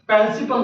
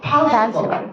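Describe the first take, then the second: First: The first P is soft, with little breath. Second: The first P is forceful, with a puff of breath. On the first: The speaker calls it wrong. "প্রিন্সিপাল না" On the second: The speaker calls it right. "ফ একটু জোর দিয়ে"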